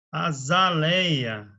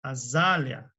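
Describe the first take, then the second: First: Azaleia with open é and a y glide, slow; common azaleia. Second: Azalea with the ending as li-a, no y glide; correct azalea. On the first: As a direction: say azaleia as a-za-LÉ-ya, stretched out. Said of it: "o pessoal costuma falar azaleia". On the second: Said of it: "É azalea". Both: Shown as a demonstration.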